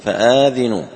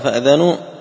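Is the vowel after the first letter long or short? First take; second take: long; short. First: The vowel after the first letter is long. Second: The vowel after the first letter is short. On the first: Inform your companions that you are at war. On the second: Know that you are at war.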